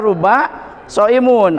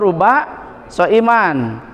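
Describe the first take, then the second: First: The last word ends in -un. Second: The last word ends in -an. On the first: "tidak boleh dibaca" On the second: "tidak boleh dibaca"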